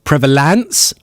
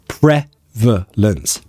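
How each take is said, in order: First: The later vowels are said as full vowels. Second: The later vowels are reduced to schwas. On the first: The speaker calls it wrong. "So not prevalence, no" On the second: The speaker calls it right. "Pre v schwa lence. Two"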